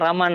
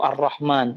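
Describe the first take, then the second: First: The name is said loosely, without precise Arabic sounds. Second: The name is said with careful, precise Arabic articulation. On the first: It is an everyday way of calling a person. The speaker calls it right. "Ya disebut Raman, Raman ... gitu ya tidak masalah" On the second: It sounds like the divine name rather than a person. The speaker calls it wrong. "Asalkan jangan fasih begitu Ar-Rahman"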